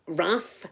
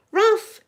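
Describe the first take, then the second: First: Said in the usual way. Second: A high, loud call of the dog's name. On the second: Real, not acted. Spotting the dog mid-story, high loud call.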